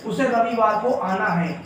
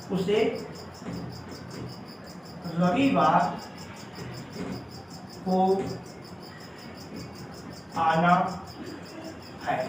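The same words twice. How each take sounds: First: Said in the usual way. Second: Each word spaced out with long pauses; slow word-by-word dictation. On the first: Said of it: "देखिए". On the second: Shown as a demonstration. Teacher dictating the Hindi translation to students, slow and word by word. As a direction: dictate it one word at a time, slowly. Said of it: "देखिए, उसे रविवार को आना है".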